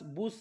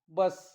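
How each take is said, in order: First: The vowel is a long 'oo' sound. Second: The vowel is a short 'uh' sound. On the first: The speaker calls it wrong. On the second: The speaker calls it right.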